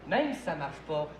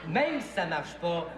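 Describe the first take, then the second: The two takes are said the same way.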